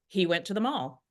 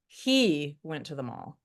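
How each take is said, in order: First: No word is given special stress. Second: The word he is stressed. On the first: It simply reports where he went. "we're just saying he went to the mall" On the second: It questions who he is or what we think of him. "We're pointing out he went to the mall"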